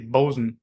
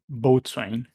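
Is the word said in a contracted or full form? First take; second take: contracted; full. First: It is said as a short contracted 'bosun'. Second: It is said in full as 'boat-swain'. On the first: The speaker calls it right. "the proper way to pronounce it is bosun" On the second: The speaker calls it wrong. "not boatswain"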